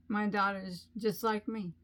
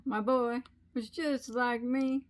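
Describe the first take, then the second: First: Said in the usual way. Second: Sung line. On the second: Retold or imitated. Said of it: "You know the song, Cats in the Cradle".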